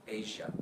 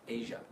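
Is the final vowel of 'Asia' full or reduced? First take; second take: reduced; reduced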